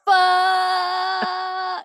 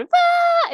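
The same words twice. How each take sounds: First: Put-on high drawn-out kid's yell of fuck; mock child yelling down a slide. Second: Put-on very high squeaky little-kid fuck; the cute version he was not doing; cute high-pitched kid. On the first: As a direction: stretch out one long high cry like a small child. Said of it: "the entire time he goes". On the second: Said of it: "cute little high pitch kid going".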